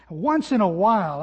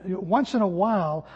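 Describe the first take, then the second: First: "Once" punched louder at the start; stress on once. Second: Said in the usual way. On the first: Shown as a demonstration. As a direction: hit the word "Once" hard.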